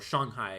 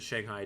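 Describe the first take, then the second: First: It is pronounced with a Chinese-style pronunciation. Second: It is pronounced with an English-style pronunciation.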